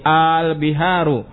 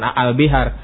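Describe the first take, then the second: First: The opening vowel is merged and drawn long. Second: The opening vowel is short and separate. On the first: The speaker calls it right. "di lebur jadi satu" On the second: The speaker calls it wrong. "salah, bukan al bihar"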